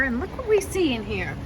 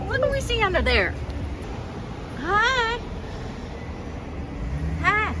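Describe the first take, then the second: First: Said in the usual way. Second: High, fast sing-song greeting; cute cooing. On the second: Real, not acted. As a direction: coo at it like a pet. Cooing at something cute inside.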